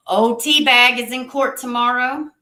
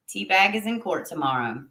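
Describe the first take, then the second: First: "Teabag" stressed, rising and louder; emphatic announcement. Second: Said in the usual way. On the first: Shown as a demonstration. Announcing to viewers that old Teabag has court, with a rising emphasis on "Teabag". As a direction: lean on "Teabag" with a rising call.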